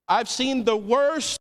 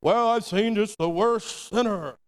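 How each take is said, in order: First: Said slowly and firmly; slow, earnest statement of faith; sincere, slow testimony; own slow declaration. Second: Slow, lightly put-on pious tone; lightly voiced judgmental church member; mock churchy voice. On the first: Shown as a demonstration. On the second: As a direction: imitate a self-righteous churchgoer, slowly. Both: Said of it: "we say this in the church".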